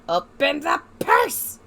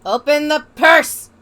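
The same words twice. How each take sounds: First: Pleading repeat. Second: Shout. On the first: Repeats demand rising. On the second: Demanding the game open purse. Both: Real, not acted.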